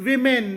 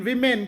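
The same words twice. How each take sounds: Both takes have the same delivery.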